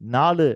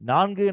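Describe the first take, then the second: First: It is said as colloquial 'naalu' with an l sound. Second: It is said as formal 'naangu' with an ng sound. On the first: It uses the everyday spoken form. The speaker calls it wrong. "பேச்சு வழக்கில் இருக்கிற எண்களை" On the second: It uses the written literary form. The speaker calls it right. "எழுத்து வழக்கில் இருக்கிற எண்கள்"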